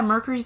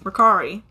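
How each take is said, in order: First: The middle vowel sounds like 'u', as in Mercury. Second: The middle vowel sounds like 'a', as in car. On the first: The speaker calls it wrong. "And they're like" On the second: The speaker calls it right. "You're an A, not a U"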